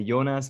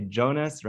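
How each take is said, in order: First: Jonas with a Y sound at the start; German pronunciation. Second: Jonas with a hard J as in "jam"; English pronunciation. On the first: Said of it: "in German we say". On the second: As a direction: say Jonas the English way, like JOE-nas. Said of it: "most people say". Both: Shown as a demonstration.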